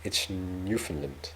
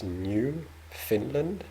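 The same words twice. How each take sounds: First: Newfoundland run together as one word, falling; correct name. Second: New Finland said as two words, Finland stressed; slow, puzzled New Finland with rising end; wrong name. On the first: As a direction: say Newfoundland as one word, NEW-fin-land. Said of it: "There's a slight difference". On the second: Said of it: "so it's not New Finland". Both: Shown as a demonstration.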